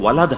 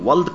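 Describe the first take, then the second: First: The word is said as two syllables. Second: The word is said as one short syllable. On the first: The speaker calls it right. "یہ تو ولد ہے. ... یہ سب اسی وزن پر ہیں" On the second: The speaker calls it wrong. "یہ ولد کہاں ہے بھائی؟"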